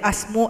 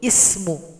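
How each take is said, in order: First: The word begins with an a vowel. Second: The word begins with an i vowel. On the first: The speaker calls it wrong. "Tidak boleh asmu" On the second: The speaker calls it right. "harus ismuhu"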